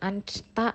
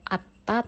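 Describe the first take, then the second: First: Both n and s are sounded before ta. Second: Only a t is sounded before ta. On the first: "bukan ansta" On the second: "atau atta"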